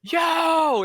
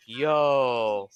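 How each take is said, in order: First: Long, high, loud mock holler; alarmed shout. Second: Calling out. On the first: Man seeing his car get ticketed, loud alarmed yell. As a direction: yell it to stop someone from afar. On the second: Retold or imitated. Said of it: "the guy was like".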